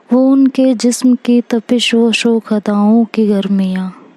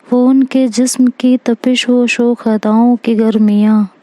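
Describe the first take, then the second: No difference in how they are said.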